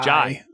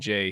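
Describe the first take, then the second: First: The vowel sounds like 'eye' in 'high'. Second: The vowel sounds like 'ay' in 'day'. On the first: The speaker calls it right. "It is pronounced like an Australian person saying Jay" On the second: The speaker calls it wrong. "I keep saying Jay"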